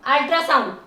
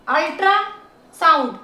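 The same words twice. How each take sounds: First: Said in the usual way. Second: ultrasound as ultra, then sound; segmented ultrasound; syllable by syllable. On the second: Shown as a demonstration. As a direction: draw out the parts of ultrasound. Teacher splits word into syllables.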